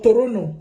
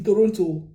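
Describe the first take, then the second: First: Toronto with the second T dropped; Toronto said casually as "Toronno"; local pronunciation. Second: Said in the usual way. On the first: Shown as a demonstration. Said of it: "as we call it".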